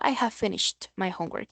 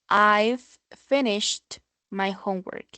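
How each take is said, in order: First: The word have is said in full. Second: The word have is contracted onto I. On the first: "En vez de encontrarlo como I have" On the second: "lo podrás encontrar como un I've"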